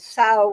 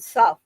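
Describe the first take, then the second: First: It is said to rhyme with plow. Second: It is said to rhyme with rough. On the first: The speaker calls it wrong. "mispronounced it as sow" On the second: The speaker calls it right. "rather than suff"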